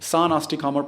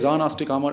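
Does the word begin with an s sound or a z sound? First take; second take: s sound; z sound. First: The word begins with a light s sound. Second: The word begins with a buzzing z sound. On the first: The speaker calls it right. "Actually सान आस्टिकामर प्रोनाउंस होता है जर्मन में" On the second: The speaker calls it wrong. "ये जेड जो है"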